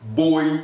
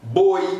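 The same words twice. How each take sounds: First: The vowel is said like 'oy'. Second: The vowel is said like 'oy'.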